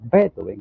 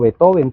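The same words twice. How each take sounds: First: It is pronounced with German sounds. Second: It is pronounced with Spanish sounds. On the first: "en alemán serían Beethoven" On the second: "así lo decimos en español"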